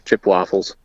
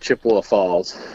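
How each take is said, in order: First: Chippewa is squeezed into two syllables. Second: Chippewa is said with three full syllables. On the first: The speaker is from the town. "if you're from there, it's" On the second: The speaker is not from the town. "if you're not from there, you call it Chippewa Falls, and you put a Ewa in there, a third syllable"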